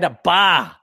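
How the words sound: The final R is dropped, ending in 'ah'. "They don't finish the R"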